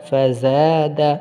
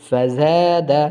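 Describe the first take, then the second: No difference in how they are said.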